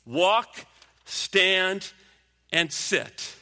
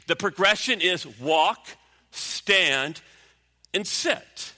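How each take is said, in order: First: Walk, stand, and sit, each word punched with a pause, Walk loudest; emphatic repeat. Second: Walk, stand, and sit, each word set apart with pauses; slow measured list. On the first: Preacher repeating the steps to drive them in. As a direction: hammer the three steps home. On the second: Preacher to the church, spelling out the steps with pauses. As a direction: lay out walk, stand, sit one step at a time. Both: Shown as a demonstration. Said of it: "we call that a progression".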